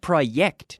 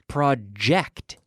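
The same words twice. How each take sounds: First: The J is not the voiced 'j' sound. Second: The J is the voiced 'j' sound. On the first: The speaker calls it wrong. "not project" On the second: The speaker calls it right. "project, j, j, j, project"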